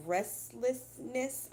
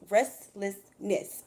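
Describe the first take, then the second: First: Slow, careful restlessness; slowed-down careful reading; said slowly. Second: Restlessness drawn out syllable by syllable; each syllable of restlessness stretched out; said really slow. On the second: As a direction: say restlessness very slowly. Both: Shown as a demonstration. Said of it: "I have to say that word really slow".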